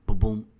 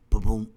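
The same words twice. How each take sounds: The two takes are said the same way.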